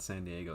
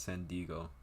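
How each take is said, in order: First: Said in the usual way. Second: "Diego" squeezed into two syllables, "DEE-go"; San Diego as "Dee-go". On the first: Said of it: "it's San Diego". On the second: Shown as a demonstration. Correcting the city's name, "Diego" said as "Dee-go". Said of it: "It's not San Diego".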